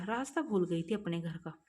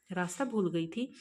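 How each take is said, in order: First: रास्ता भूल गई थी said as a calm falling statement; quiet statement. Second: भूल rising into a questioning tune; puzzled question. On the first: Ramesh quietly explains to the mother, calm statement. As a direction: state it gently, no question. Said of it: "तभी रमेश धीरे से बोला". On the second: Mother repeats Ramesh's words, puzzled rising question. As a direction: echo it back as a surprised question. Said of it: "Rimsha की mummy बोली". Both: A narrator's reading.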